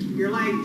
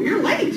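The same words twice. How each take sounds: First: It is said in a bored tone. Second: It is said in a surprised tone. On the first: The speaker does not care about the lateness. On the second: The speaker did not expect the lateness.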